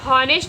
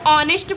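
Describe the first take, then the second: First: The word begins with an audible h sound. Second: The word begins directly with a vowel sound. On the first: The speaker calls it wrong. "ऐसे हॉनेस्ट इसको नहीं पढ़ा जाएगा, ये गलत है" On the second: The speaker calls it right. "इसको ऑनेस्ट पढ़ा जाएगा"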